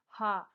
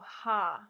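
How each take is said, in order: First: The sound is short and quickly repeated. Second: The sound is drawn out and held long. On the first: "say it a little bit faster" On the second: "the longer one"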